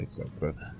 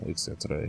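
First: "et cetera" whispered away to nothing. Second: Said in the usual way. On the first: A narrator's reading. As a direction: let "et cetera" trail off into a breathy whisper. Repeated phrase, second fades.

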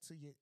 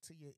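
The two takes are said the same way.

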